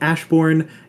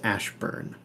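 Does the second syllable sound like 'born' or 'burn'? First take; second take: born; burn. First: The second syllable sounds like 'born'. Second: The second syllable sounds like 'burn'. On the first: The speaker calls it wrong. "Some would call it Ashbourne, and they would be driven out because that's not how you pronounce it" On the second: The speaker calls it right. "It's Ashburn"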